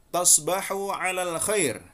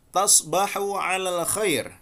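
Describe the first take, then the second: Both takes have the same delivery.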